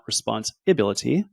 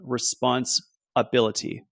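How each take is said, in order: First: It is run together as one word. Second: It is split into two separate words. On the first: It is the ordinary word for duty. "not responsibility" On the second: It is the ability to respond. "It's response ability, your ability to respond"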